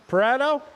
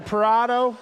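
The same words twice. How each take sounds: First: Pareto said puh-REH-toh, short eh in the middle; Pareto, middle vowel like in bed. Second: Parado said pa-RAH-doh, open ah in the middle. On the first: Announcer correcting the racer's name to Pareto with eh. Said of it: "With an E". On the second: Announcer checking a racer's name, saying Parado with ah. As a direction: Parado with the middle vowel as in father, checking if it's right. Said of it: "am I saying that right?". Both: Shown as a demonstration.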